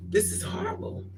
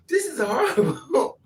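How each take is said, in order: First: Squeaky whispered lament; high breathy squeak. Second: Drawn out and high; high comic lament; slow high wail. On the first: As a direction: squeak it out in despair. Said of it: "I was like". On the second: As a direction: stretch it like inner despair. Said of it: "You think". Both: Retold or imitated.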